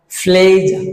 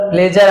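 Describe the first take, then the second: First: ফ্লেজার with puffed p and silent final r; corrected pronunciation. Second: প্লেজার with a plain p and short e; common mispronunciation. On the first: Teacher drilling ফ্লেজার slowly, aspirated p, r dropped. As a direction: draw out the first syllable of ফ্লেজার. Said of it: "ফি sound হয়". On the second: Teacher quoting our usual প্লেজার, plain p. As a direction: say প্লেজার quickly, unaspirated. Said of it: "প্লেজার আমরা বলছি". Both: Shown as a demonstration.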